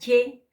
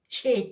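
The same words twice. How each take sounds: First: A plain ch with no catch or puff. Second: A ch with a strong puff of air. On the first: "Simple, la che como en castellano" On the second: "Y la expirada"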